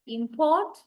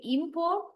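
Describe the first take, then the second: First: Import as a verb, im-PORT, second syllable stressed. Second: Import as a noun, IM-port, first syllable stressed. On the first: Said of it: "that is the verb". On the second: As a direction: lean on IM in import, ending on a rise. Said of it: "that is the noun". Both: Shown as a demonstration.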